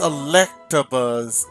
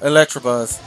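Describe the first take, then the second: First: No R sound follows the T. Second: An R sound follows the T. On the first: The speaker calls it right. "It's Electabuzz" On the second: The speaker calls it wrong. "I always add the R at the end. After the T"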